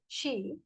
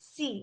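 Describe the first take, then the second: First: The word starts with an 'sh' sound. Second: The word starts with an 's' sound. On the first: The speaker calls it right. "you meant to say she" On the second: The speaker calls it wrong. "you happen to say she, which is mispronunciation"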